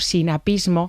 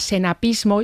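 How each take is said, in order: First: The first vowel is an 'i' sound. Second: The first vowel is an 'e' sound. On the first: This is how others are usually heard saying it. "yo lo he oído como sinapismo" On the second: This is how the speaker's mother said it. "Mi madre decía senapismo"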